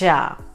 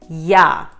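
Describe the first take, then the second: First: It starts with a J sound. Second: It starts with a Y sound. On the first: The speaker calls it wrong. "and not Ja" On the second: The speaker calls it right. "the letter J has a Y sound"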